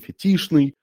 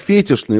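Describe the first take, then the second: First: The stress is on the second syllable. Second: The stress is on the first syllable. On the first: The speaker calls it right. "он фетишный" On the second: The speaker calls it wrong. "Он не фетишный образ"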